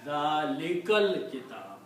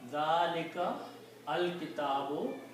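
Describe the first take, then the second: First: The words are joined, with the 'a' of 'al' dropped. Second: The two words are separate, with the 'a' of 'al' sounded.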